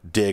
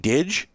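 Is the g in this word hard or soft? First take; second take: hard; soft. First: The word ends in a hard g sound. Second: The word ends in a soft j sound. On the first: The speaker calls it right. "was pronounced as in I dig it or dig a hole" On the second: The speaker calls it wrong. "I really thought it would be Didge"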